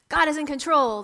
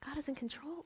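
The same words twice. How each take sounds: First: It is said as a confident exclamation, falling. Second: It is said as a doubtful question, rising.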